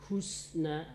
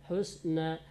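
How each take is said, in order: Both takes have the same delivery.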